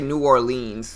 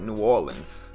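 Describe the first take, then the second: First: It is pronounced the way tourists say it. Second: It is pronounced with a heavy local accent. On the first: The speaker is not from the area. "Nobody says it like that. Tourists say it like that" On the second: The speaker has a strong regional accent. "if they have like a really deep accent"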